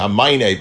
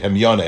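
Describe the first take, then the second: First: The word is pronounced as hamine. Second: The word is pronounced as hemyone. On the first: The speaker calls it wrong. "I was reading hamine because of the two yuds" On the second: The speaker calls it right. "that's the correct pronunciation"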